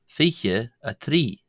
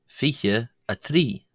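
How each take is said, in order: The two takes are said the same way.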